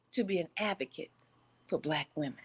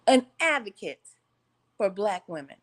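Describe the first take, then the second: First: Quiet, trailing off; said under the breath before the repeat; dropped low at the end; plain first take. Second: Louder, projected to the back row; announced louder repeat. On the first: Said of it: "let me say that one more again for the people in the back". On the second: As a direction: say it again so the back can hear. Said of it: "Just for the people in the back can't hear". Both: Shown as a demonstration.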